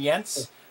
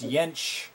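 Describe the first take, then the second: First: The name ends in a plain s sound. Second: The name ends in a ch sound. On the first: The speaker calls it wrong. "I was saying Jens" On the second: The speaker calls it right. "With a sh at the end"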